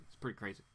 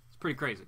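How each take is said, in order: First: Softer and lower, as if to himself; much softer echo. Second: Said in the usual way. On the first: Real, not acted. Host echoing his own reaction to himself, softly. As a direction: repeat it under your breath.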